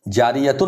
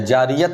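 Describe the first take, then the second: First: The word ends in -atun. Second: The word ends in -at. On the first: "जारियतुन नहीं" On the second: "या जारियत नहीं"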